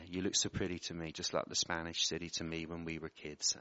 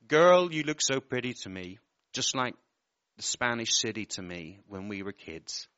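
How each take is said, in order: First: Emotional, softer. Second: Said in the usual way. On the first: Real, not acted. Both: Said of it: "I'm feeling a bit emotional".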